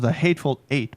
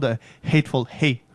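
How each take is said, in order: First: The last word begins with a vowel sound. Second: The last word begins with an h sound. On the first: The speaker calls it right. "ça se prononce The Hateful Eight" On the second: The speaker calls it wrong. "pas The Hateful Hate"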